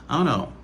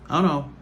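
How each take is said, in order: The two takes are said the same way.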